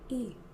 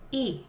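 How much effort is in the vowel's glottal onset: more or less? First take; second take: less; medium. First: The glottal onset has effort level two. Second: The glottal onset has effort level four.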